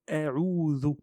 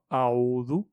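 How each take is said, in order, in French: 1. La première voyelle est fine et légère. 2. La première voyelle est épaisse et emphatique. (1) "le alif, il est aminci" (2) "On ne dit pas a'udhu"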